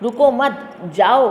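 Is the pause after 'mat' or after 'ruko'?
after mat. The pause comes after 'mat'.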